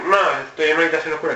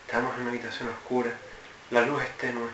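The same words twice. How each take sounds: First: Quick, offhand delivery; sin pausas. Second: Hushed, low, paused narration; más pausado. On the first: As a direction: rattle it off in one go. (dicho deprisa y sin pausa) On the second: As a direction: set the scene softly, pausing between phrases. (narración pausada, grave y en voz baja) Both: Shown as a demonstration. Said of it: "lo dices más pausado".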